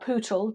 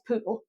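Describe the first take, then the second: First: The word is said fully, every sound clear. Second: The word is said quickly and clipped.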